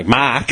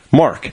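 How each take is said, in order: First: Australian Mark, long open vowel; Australian accent. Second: The name with a hard American R; American accent. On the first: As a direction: Mark said the Aussie way, no R. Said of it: "what do you want me to say". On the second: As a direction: Mark said with an American R. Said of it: "your accent is so fucking American". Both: Retold or imitated.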